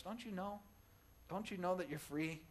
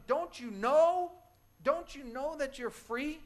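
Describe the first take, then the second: First: Softer, gentle repeat of the plea; Paul asking the church, softly and earnestly; quiet repeat. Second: High, slow, loud plea to the prisoner; yelling to a prisoner who stays in an open cell, loud and slow; pleading yell. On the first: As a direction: bring it down to a quiet, earnest question. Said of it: "that's what Paul is saying here". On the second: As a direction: call out slowly, pleading with them to see they're free. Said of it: "You would wanna yell to them". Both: Retold or imitated.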